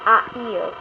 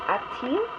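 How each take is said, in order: First: "a il" said as two bare vowels run together, no T between them; the wrong way: "a il" with no T sound linking the words; wrong form without T. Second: "a-t-il" with a clear T joining a and il; correct form with T. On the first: Teacher warns students off the mistake, "a il" said with no T. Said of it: "so that you do not say". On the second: Teacher gives students the right form, "a-t-il" with a clear T. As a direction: sound the T crisply in "a-t-il". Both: Shown as a demonstration.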